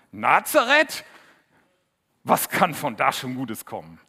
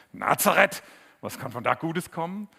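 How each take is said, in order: First: Scornful doubt. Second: High, loud scoffing Nazareth with a mocking rise; scornful doubt. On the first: Retold or imitated. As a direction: scoff at the town as if nothing good could come from it. Nathanael zweifelt an Nazareth. (laut und höhnisch, Nathanael spottet über Nazareth) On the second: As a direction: sneer at the town in disbelief. Nathanael zweifelt erneut, nacherzählt. (laut und höhnisch, der Skeptiker spottet über Nazareth)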